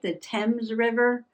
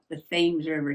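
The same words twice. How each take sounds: First: Thames is said the way it is in England. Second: Thames is said the southern New England way. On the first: "I think that's how they pronounce it in England" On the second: "here in New England, southern New England, right? They call it the Thames River"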